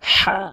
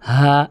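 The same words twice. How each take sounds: First: The h is pressed from mid-throat. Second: The h is light and airy. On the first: The speaker calls it right. "এরকম" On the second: The speaker calls it wrong. "এরকম নয়"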